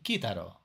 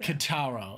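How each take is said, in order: First: The name is said with a Japanese pronunciation. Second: The name is said with an American pronunciation. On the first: "if you go to Japan and you ask for Kitaro, they're gonna say like, "Oh, you mean Kitaro?"" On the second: "that's the only way I would think that somebody would say it"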